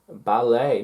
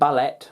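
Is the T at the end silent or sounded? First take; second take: silent; sounded. First: The final T is not pronounced. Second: The final T is clearly pronounced. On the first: The speaker calls it right. "Silent T" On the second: The speaker calls it wrong. "not ballet"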